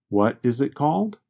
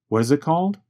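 First: It is said slowly, each word clear. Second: It is said quickly, the words reduced. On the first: "Speaking slowly, I can say" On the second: "But when I speak quickly, it changes to"

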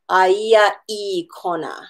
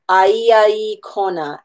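First: A glottal stop breaks the words before 'I'. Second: The words run smoothly together with no glottal stop. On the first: The speaker calls it wrong. "as opposed to putting the glottal stop in front of that I" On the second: The speaker calls it right. "we need to say aia I kona"

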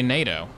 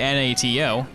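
First: It is spoken as one single word. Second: Each letter is spoken separately. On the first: The speaker calls it right. "you say NATO" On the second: The speaker calls it wrong. "you don't say N-A-T-O"

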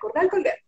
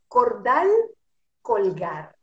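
First: The phrase is said quickly. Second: The phrase is said slowly. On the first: "hasta que ya toma la velocidad" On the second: "es así"

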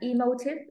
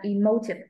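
First: The stress is on the last syllable. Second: The stress is on the second syllable. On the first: The speaker calls it wrong. "stress vào âm cuối rồi là em stress sai đó" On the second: The speaker calls it right. "Nếu cách số 2 thì em phải đọc là emotive"

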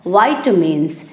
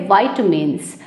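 Both takes have the same delivery.

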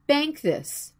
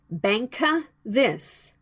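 First: No extra vowel is added after 'bank'. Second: An extra vowel is added after 'bank'. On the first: The speaker calls it right. "Stick your tongue to the spot like in the picture" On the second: The speaker calls it wrong. "Please don't say it like banka this"

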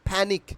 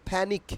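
The two takes are said the same way.

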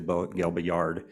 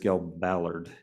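First: The double L sounds like a Y. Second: The double L sounds like an L. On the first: The speaker calls it wrong. "I see a double L and I want to pronounce it like a Y" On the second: The speaker calls it right. "but it's"

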